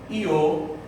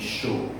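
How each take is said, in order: First: The word starts with an ee-like glide. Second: The word starts with an sh sound. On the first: "com o som de I" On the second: "um som de X"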